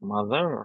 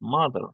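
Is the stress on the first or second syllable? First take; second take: second; first. First: The stress is on the second syllable. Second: The stress is on the first syllable. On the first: The speaker calls it wrong. "Not" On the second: The speaker calls it right. "এখানে কিন্তু মাতে stress"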